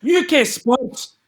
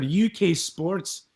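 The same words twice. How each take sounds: First: High, slow Scottish "U K Sports" sign-on; Scottish announcer. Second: Slow, lightly Scottish "U K Sports"; a hint of the Scottish reporter, drawn out; mild Scottish. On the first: Pretend. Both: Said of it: "his name is Ian McGregor".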